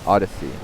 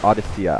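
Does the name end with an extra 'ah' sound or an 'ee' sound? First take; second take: ee sound; ah sound. First: The name ends on an 'ee' sound. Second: The name ends with an added 'ah' sound.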